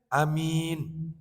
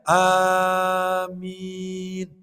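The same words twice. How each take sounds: First: The vowel is kept short. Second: The vowel is drawn out long. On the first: "Contohnya pendek" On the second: "dibaca panjang"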